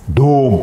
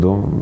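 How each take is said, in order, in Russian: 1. Слово сказано с придыханием и благоговейно. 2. Слово сказано ровно и пренебрежительно.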